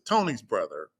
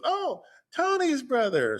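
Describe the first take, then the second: First: Said in the usual way. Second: Much higher, sing-song woman's voice on "Tony's brother"; mimicking her recognition. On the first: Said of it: "And I said". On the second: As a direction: play her going "oh, that one" in a high lilt. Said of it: "So she goes".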